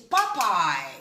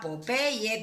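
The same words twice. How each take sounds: First: It is pronounced the English way. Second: It is pronounced the Spanish way. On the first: The speaker calls it right. "It's Popeye, right?" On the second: The speaker calls it wrong. "It's not Popeye. That's not the pronunciation in English"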